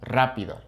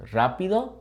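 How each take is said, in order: First: "rápido" opening on a trill, falling at the end; rolled initial R. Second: "Rápido" with a light initial R, rising; don't trill the start of "Rápido"; unrolled R. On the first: Comparing for learners, trilled "rápido". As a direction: roll the R starting "rápido". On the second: Comparing for learners, unrolled "Rápido". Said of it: "harder to say something like". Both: Shown as a demonstration.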